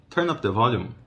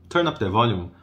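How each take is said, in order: The two takes are said the same way.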